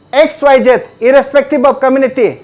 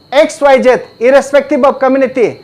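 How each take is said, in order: The two takes are said the same way.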